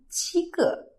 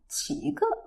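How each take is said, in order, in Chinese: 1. “七”读高平调。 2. “七”读升调。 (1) "他们在讲很多第一声的时候" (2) "他们会发成七个"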